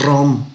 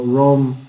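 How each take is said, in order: First: "rom" with a hard Spanish trilled r; strong rolled R. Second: "rom" with a soft, untrilled English r. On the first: Teacher showing the wrong English sound, trilled r in "rom". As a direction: roll the r hard at the start of "rom". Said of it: "Si se fijan, no es rom". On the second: Teacher correcting to the English sound, soft r in "rom". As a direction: glide into "rom" without rolling the r. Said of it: "La R inglesa es suave". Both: Shown as a demonstration.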